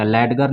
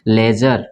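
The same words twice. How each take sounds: First: लेडगर with D and hard G; spelling-based लेडगर, D and G both sounded; mispronounced with D. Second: D dropped from लेजर, J sound; correct, silent D. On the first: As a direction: say the wrong लेडगर as "led-gar". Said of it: "लेडगर नहीं पढ़ेंगे". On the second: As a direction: model लेजर with no separate D. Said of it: "इसको क्या पढ़ेंगे". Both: Shown as a demonstration.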